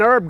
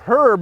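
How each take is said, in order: First: It is said the American way, without an h. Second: It is said the English way, with an h.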